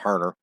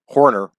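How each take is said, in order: First: The first vowel sounds like 'ar'. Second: The first vowel sounds like 'or'. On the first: The speaker calls it wrong. "not Harner" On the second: The speaker calls it right. "Horner over Weingeroff, not Harner"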